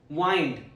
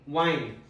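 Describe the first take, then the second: First: The vowel is long, as in find. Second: The vowel is long, as in find.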